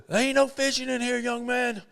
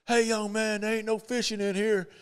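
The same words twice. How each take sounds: First: Imitated older man, higher and firmer; Arnold Palmer repeating himself. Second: Imitated older man, higher and scolding; half-playful warning to a stranger on his dock; Arnold Palmer shooing a kid. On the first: Palmer repeating his warning to the young fisherman, imitated. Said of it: "And he says". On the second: Palmer scolding an unknown kid off his dock, imitated. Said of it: "and he says".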